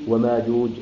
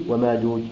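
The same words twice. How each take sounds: Both takes have the same delivery.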